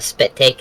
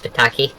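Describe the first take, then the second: First: It is said as two syllables, spit take. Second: It is said as three syllables, spi-ta-ki.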